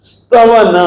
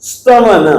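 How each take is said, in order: No difference in how they are said.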